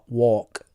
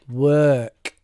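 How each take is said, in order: First: The vowel is a rounded 'or' sound. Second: The vowel is an unrounded 'er' sound. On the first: The speaker calls it wrong. "you were using a kind of a o or a or sound, which is not correct" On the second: The speaker calls it right. "The the actual sound here is a er sound"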